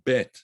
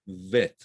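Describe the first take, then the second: First: It begins with a hard B sound. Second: It begins with a soft V sound. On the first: The letter has a dot in it. "if you pronounce it with a dagesh in it, it's a hard sound" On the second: The letter has no dot in it. "If it's pronounced without the dagesh"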